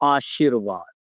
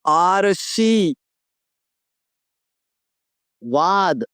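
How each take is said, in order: First: The r sound comes after the sh sound. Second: The r sound comes before the sh sound. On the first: The speaker calls it right. "आपको लिखना है आशीर्वाद" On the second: The speaker calls it wrong. "अगर मैं इस तरह से पढ़ूंगा तो ये पढ़ूंगा आरशी"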